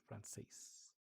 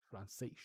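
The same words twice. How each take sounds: First: Said in the usual way. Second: "Francês" ending in a soft sh; European-style pronunciation. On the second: Shown as a demonstration. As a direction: say "Francês" with the final s as sh. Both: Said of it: "the way that he says it".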